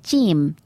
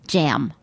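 First: It is said in an imitated Australian accent. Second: It is said in the speaker's American accent.

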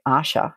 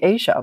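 First: It sounds like 'Asha', with a 'sh' sound. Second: It sounds like the continent, with a 'zh' sound. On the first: The speaker calls it right. "That's A-S-H-A" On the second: The speaker calls it wrong. "I'm saying Asia, like Asia"

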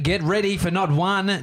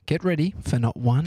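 First: It is read in a loud, hyped-up voice. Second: It is read in a plain, calmer voice. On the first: "Higher energy" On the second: "I'm just going to read you before this"

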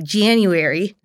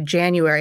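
First: The word has a Philadelphia accent pronunciation. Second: The word has a standard American pronunciation. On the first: "I would say January" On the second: "I wouldn't say January"

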